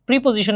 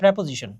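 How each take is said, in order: First: The first syllable sounds like 'pree'. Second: The first syllable sounds like 'preh'. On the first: The speaker calls it wrong. "প্রিপোজিশন না" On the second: The speaker calls it right. "কিন্তু উচ্চারণ হয় প্রেপোজিশন"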